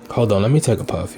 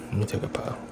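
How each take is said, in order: First: Said in the usual way. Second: Breathy whisper while drawing smoke; breathy whisper, lips on the joint. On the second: Real, not acted.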